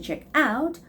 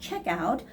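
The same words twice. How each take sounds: First: The stress falls on the second word. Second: The stress falls on the first word. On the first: The speaker calls it right. "the stress goes on the word out" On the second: The speaker calls it wrong. "it's not check out"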